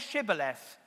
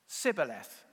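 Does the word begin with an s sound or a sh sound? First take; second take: sh; s. First: The word begins with a sh sound. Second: The word begins with an s sound. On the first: The speaker is not an Ephraimite. The speaker calls it right. "say Shibboleth" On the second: The speaker is an Ephraimite. The speaker calls it wrong. "the Ephraimites couldn't say shh"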